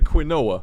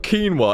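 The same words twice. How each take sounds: First: The first syllable sounds like quin. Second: The first syllable sounds like keen. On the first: The speaker calls it right. "It's quite clearly quinoa" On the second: The speaker calls it wrong. "It's not quinoa"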